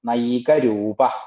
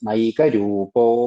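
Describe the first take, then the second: First: The word ends with a breathy h sound. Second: The word ends with an o sound.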